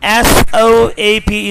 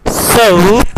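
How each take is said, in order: First: "soap" as "sawp", one pure vowel; wrong vowel. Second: "soap" as "soh-oop"; correct vowel. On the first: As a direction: say "soap" without a glide. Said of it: "is not soap". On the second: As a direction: glide the O in "soap" towards "oo". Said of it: "but soap". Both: Shown as a demonstration.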